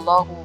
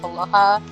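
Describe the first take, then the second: First: The word ends with a u vowel. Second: The word ends with an a vowel. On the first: "berharokat dhammah" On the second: "berharokat fathah"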